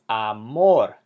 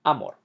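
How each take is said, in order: First: "amor" slowly as a-MOR; slow teaching "amor", weight at the end; stress on last syllable. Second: "amor" wrongly stressed as A-mor; stress on first syllable. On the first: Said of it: "emphasize the last syllable". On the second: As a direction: hit the opening a of "amor". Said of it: "not amor". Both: Shown as a demonstration.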